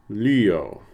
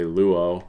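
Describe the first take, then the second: First: The first vowel is a front rounded 'ü' sound. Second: The first vowel is a plain back 'oo' sound. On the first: This is the ancient Greek pronunciation. "That's how that should be pronounced" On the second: This is a casual simplified pronunciation. "you'll often hear me just say luo"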